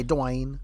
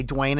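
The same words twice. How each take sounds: First: "Dwayne" as duh-WAYNE; "Dwayne" split into two syllables. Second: "Dwayne" as one beat, dwayne; "Dwayne" with D straight into W; local one-syllable Dwayne. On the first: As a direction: say "Dwayne" with an uh between D and W. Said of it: "other parts of the country might say". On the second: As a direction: say "Dwayne" in a single syllable, like rain. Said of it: "people from our area usually say". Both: Shown as a demonstration.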